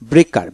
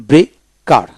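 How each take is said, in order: First: Said in the usual way. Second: breaker split as bre, pause, kar; syllable by syllable. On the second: Shown as a demonstration. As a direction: break breaker in two for learners. Teacher breaks word, then joins it.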